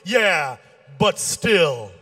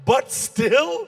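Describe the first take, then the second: First: Stubborn comeback. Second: Higher, rising disbelief; disbelieving question that climbs at the end; incredulous echo. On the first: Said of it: "He kept arguing. Finally, he goes". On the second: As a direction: throw it back as a stunned question. Comic echoes the weak comeback incredulously. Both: Acted.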